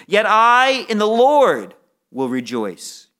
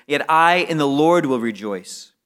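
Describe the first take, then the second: First: "in the Lord" slowed and raised, louder; slow, emphatic "Yet I in the Lord"; stress on in the Lord. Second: Said in the usual way. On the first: Shown as a demonstration. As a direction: lean hard on "in the Lord", slowly. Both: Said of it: "to emphasize it".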